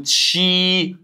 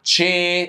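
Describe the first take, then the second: First: "تشي" as a long, higher "chee"; ch with i vowel. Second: "تشي" as a higher, open "cheh". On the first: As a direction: stretch "تشي" on a closed ee vowel. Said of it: "بتكسر شوية،". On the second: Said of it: "لما حرف الاي بتفتح،". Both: Shown as a demonstration.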